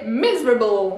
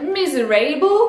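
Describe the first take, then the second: First: The 'a' is said as a reduced vowel. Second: The 'a' is said as a full vowel. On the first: The speaker calls it right. "Le A n'est pas prononcé A" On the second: The speaker calls it wrong. "on aurait tendance à se dire miserable. Eh ben non"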